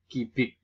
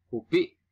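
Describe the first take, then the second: First: "gibik" said as kibik; nonstandard pronunciation. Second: "Kubik" with u first; standard pronunciation. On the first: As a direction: say ki-bik, i in both syllables. (ucapkan "gibik" sebagai kibik) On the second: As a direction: say ku-bik for "Kubik", high. (ucapkan "Kubik" dengan u) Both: Shown as a demonstration.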